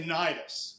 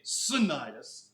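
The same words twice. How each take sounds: First: The C at the start is silent. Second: The C at the start is sounded. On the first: The speaker calls it right. "is the way it's pronounced" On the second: The speaker calls it wrong. "It's got a C in front, but you don't say Cnidus"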